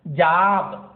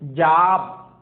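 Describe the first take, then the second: No difference in how they are said.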